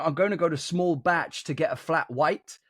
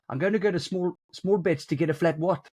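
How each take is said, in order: First: It is said in the speaker's everyday accent. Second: It is said in a South African accent. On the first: "when I'm saying" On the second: "when you say it in South African"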